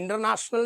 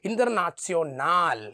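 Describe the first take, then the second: First: It has English sounds with a short final vowel. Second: It has German sounds with a long final a. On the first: "ഇൻ്റർനാഷണൽ എന്നൊക്കെ വേണമെങ്കിൽ വായിക്കാം" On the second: "നീട്ടി വായിക്കണമെന്നാണ്"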